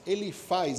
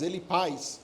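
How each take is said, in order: First: The last syllable starts with an F sound. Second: The last syllable starts with a P sound. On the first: "faz ou paz" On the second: "Se pronuncia paz"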